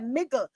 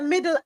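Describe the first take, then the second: First: The middle consonant is a g sound. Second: The middle consonant is a d sound. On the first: "We say miggle. So we turn the two D's into two G's" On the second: "We don't say middle either"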